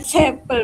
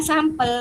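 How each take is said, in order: First: "sampel" pronounced SEM-pel, louder; sampel as sempel. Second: "sampel" pronounced SAM-pel, with open ah. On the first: Participant rejecting the reading, sampel as SEM-pel. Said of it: "bukan sampel". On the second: Participant recalling the correct reading, sampel with ah. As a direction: say "sampel" with first vowel as in father. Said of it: "seingat saya itu bacanya sampel". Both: Shown as a demonstration.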